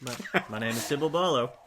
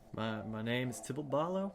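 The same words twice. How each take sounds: First: It is said with more confidence. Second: It is said hesitantly, with little confidence.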